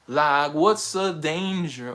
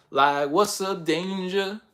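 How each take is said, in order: First: Even slower, settling down; slower, falling repeat. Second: Drawn out, slow and cool; slow bold question. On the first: Miles repeating himself, slower and falling. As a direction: let it drop and linger. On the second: Miles leaping into action, slow and cocky. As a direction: savour each word slowly. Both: Retold or imitated. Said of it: "Miles just jumped out of nowhere and was like".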